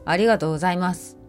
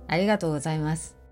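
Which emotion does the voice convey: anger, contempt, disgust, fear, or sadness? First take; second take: anger; disgust. First: The voice sounds angry. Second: The voice sounds disgusted. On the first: "怒り、" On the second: "嫌悪。"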